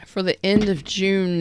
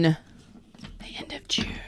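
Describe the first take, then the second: First: Said in the usual way. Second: Soft slow whisper, almost no voice. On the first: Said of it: "repeated as whisper". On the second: Shown as a demonstration. Tarot reader whispering the date to viewers. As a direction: lean in and breathe it slowly.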